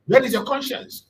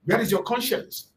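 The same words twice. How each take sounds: First: "Where" pitched high and pushed harder; louder accusing question. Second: Said in the usual way. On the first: Retold or imitated. Kanu confronting the news agencies, louder accusing repeat. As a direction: repeat it more forcefully, rising. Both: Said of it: "Asking them".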